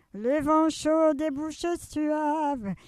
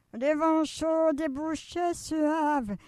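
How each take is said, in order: The two takes are said the same way.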